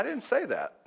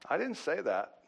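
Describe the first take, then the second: First: A laugh running through the words. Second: Said in the usual way. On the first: Real, not acted. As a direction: chuckle while denying it. Joking about the sermon topic.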